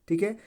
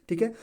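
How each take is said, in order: Both takes have the same delivery.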